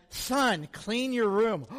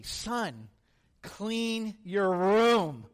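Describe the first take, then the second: First: Said in the usual way. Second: Very slow, every word drawn out with awe; treasured words savoured slowly; reverent slow quote. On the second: Retold or imitated. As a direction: say it like holy scripture. Kid reverently quotes dad to friends.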